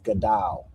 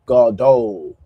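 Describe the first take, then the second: First: The second vowel is an a sound. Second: The second vowel is an o sound. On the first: This is how the speaker's group says it. "We would pronounce this as Gadal" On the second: This is how a Yiddish speaker says it.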